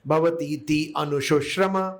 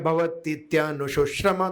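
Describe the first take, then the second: First: The two words are said separately, without merging. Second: The two words merge into one joined form. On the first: "भवतीति है और अनुशुश्रम है" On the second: "संधि होके क्या बनता है"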